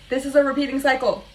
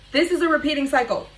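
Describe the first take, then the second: First: Emphatic repeat. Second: Emphatic realization. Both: Real, not acted.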